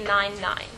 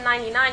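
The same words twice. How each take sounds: First: "nine nine" said as two separate digits, a small gap between them; digits said separately. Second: Said in the usual way. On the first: Shown as a demonstration. Teacher showing a shortcut to his class, "nine nine" said as two separate digits. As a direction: say "nine nine" digit by digit, not as one number. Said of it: "instead of ninety-nine". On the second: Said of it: "you can say nine nine".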